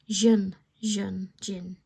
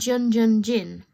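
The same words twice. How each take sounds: First: The name begins without an English J sound. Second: The name begins with an English J sound. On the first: The speaker calls it right. "Korean people don't pronounce the J" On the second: The speaker calls it wrong. "now I was saying Jun Jun Jin"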